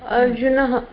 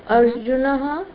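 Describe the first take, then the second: No difference in how they are said.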